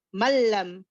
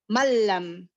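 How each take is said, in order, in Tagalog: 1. Ang n ay nagsasama sa tunog ng dobleng l. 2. Ang n ay nagsasama sa tunog ng dobleng l.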